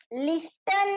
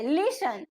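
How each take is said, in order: First: લિસ્ટન with a clear T, lis-tun; T wrongly pronounced. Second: લિસન with no T, as lis-un; silent T. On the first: Teacher shows what we don't say, T sounded in લિસ્ટન. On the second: Teacher gives students the correct word, silent T in લિસન. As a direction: go from S straight to the ending in લિસન. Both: Shown as a demonstration. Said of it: "લિસ્ટન નહીં કહેતા આપણે".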